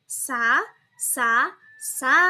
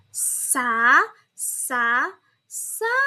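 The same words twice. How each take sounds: First: The syllables are said at a faster pace. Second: The syllables are said at a slower pace.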